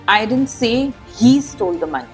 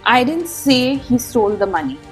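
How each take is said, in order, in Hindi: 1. शब्द he पर मुख्य बलाघात है। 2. शब्द say पर मुख्य बलाघात है। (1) "Emphasizing he suggests that someone else might have" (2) "Emphasizing say implies you might have written it"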